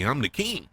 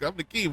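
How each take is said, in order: First: Said in the usual way. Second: Higher, affronted king's complaint; a petulant young king protesting; mock indignant king. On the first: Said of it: "Not including me". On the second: Aegon protesting being left out, raised indignant voice. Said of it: "He's like".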